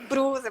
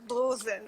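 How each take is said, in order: First: The word is said with an 'r' sound. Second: The word is said with an 'l' sound.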